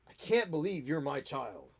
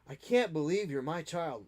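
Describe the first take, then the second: First: It sounds disappointed and disapproving. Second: It sounds proud and amazed.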